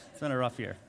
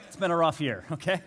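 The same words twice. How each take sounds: First: Said in the usual way. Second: Laughing through the words at his own joke. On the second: Real, not acted. Pastor laughing to congregation about edited photo, laughing. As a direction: chuckle it out to the congregation.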